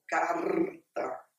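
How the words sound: It is said in a southern border accent. "conforme os gaúchos lá na fronteira falam"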